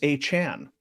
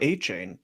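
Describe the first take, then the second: First: The last syllable sounds like 'chan'. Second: The last syllable sounds like 'chain'. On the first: The speaker calls it right. "it's A. Chan" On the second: The speaker calls it wrong. "It's not Devon A. Chain"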